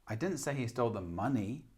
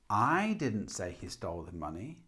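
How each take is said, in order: First: The stress falls on the word money. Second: The stress falls on the word I. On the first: He stole something else. "Or money" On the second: Someone else said it. "So with I"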